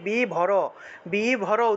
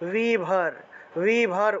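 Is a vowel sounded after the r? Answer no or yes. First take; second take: yes; no. First: The r is followed by a vowel sound. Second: The r is said without a following vowel. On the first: The speaker calls it wrong. "অনেকে বি ভর বি ভর উচ্চারণ করে ফেলেন। বি ভর হবে না তো" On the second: The speaker calls it right. "রয়ের নিচে হসন্ত থাকলে ভি ভর ভি ভর উচ্চারণ করবেন"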